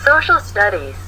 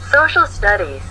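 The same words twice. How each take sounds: The two takes are said the same way.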